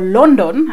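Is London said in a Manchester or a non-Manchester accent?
Manchester. Said in the speaker's own Manchester-area accent.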